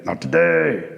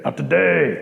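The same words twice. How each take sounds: First: "not today" dropped very low like a frog croak; bullfrog voice. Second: Said in the usual way. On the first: Acted. Bullfrog refuses Rabbit entry.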